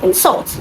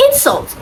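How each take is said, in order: First: "insult" with the stress on the second syllable. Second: "insult" with the stress on the first syllable. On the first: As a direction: say "insult" as the verb, in-SULT. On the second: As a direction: say "insult" as the noun, IN-sult. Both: Shown as a demonstration. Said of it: "from the first syllable to the second".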